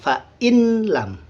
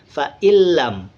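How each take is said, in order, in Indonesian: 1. Bunyi n dibaca sebelum l. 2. Bunyi n menyatu ke l yang ganda. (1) "tulisannya fa in lam" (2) "ketika kita baca fa illam, hilang nun matinya"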